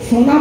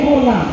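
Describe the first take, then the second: First: The word begins with an s sound. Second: The word begins with an h sound. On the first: "শোনা বলতে পারে না" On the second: "বলে হোনা"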